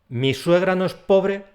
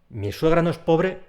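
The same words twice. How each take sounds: The two takes are said the same way.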